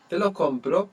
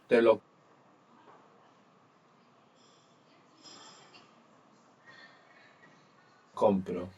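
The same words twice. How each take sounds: First: The voice rises at the end, like a question. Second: The voice falls at the end, like a statement.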